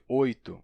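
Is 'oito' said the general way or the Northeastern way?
general. It is said with the general standard pronunciation. "em vez de oito"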